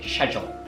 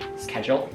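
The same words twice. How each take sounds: First: Spoken in a British accent. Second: Spoken in an American accent. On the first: "in the British way it's, ... They say" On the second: "In American way they say"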